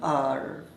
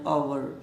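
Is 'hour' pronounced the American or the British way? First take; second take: American; British. First: The word is said with an American pronunciation. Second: The word is said with a British pronunciation. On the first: "American में इसको आवर ना बोलकर आर" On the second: "British English में जो इसका उच्चारण है... उसमें इसको आवर बोलते हैं"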